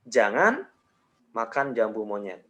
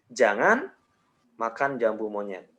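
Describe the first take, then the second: First: There is a pause after jangan. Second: There is a pause after jangan.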